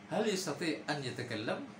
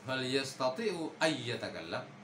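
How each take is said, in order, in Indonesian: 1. Huruf n dilafalkan jelas dan terpisah. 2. Huruf n menyatu dengan bunyi y setelahnya. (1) "dibaca normal-normal saja" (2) "itu kaku ya"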